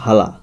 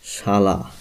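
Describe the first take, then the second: First: The word begins with an h sound. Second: The word begins with an sh sound. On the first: "হালাটা হয়ে গেছে" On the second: "আমাদের এখানে কি ছিল"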